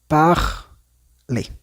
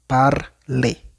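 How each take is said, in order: First: The R is made in the throat, French-style. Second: The R is made with the tongue, Spanish-style.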